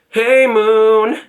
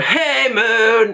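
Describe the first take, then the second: First: It is said lightly with minimal breath. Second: It is said with pushed, forced effort. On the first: The speaker calls it right. "with like the least amount of air required" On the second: The speaker calls it wrong. "I'm forcing"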